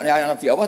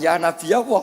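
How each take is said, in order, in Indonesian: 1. Setelah nabi ada hamzah. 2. Nabi diakhiri bunyi y ganda, tidak ada hamzah. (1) "Semuanya itu pakai hamzah" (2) "pakai apa? Ya"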